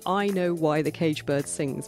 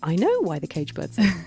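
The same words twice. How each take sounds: First: It is said in a serious, formal way. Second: It is said in a casual, conversational way.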